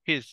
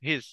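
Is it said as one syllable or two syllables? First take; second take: one syllable; one syllable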